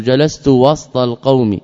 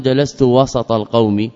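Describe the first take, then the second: First: وسط as "wast", no vowel after the s; وسط with a vowelless seen; silent middle consonant. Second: وسط as "wasat", with an a after the s; وسط with a vowelled seen; open middle vowel. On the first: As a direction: say وسط with s running straight into t. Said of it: "ووسط بالسكون". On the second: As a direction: say وسط in two syllables, wa-sat. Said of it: "ولا يقال". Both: Shown as a demonstration.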